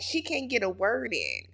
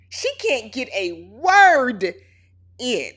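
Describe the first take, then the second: First: Said in the usual way. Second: Each word in "She can't get a word in" dragged out slowly and louder; slow emphatic repeat. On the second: Shown as a demonstration. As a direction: lean on every word, slow and firm.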